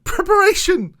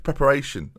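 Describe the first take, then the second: First: Preparation! shouted much higher and louder, every syllable stretched; hammed-up overblown Preparation!; exaggerated pronunciation. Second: Said in the usual way. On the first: Shown as a demonstration. Correcting himself, he hams up the word preparation. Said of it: "Prepare, prep, preparation". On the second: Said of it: "Prepare, prep".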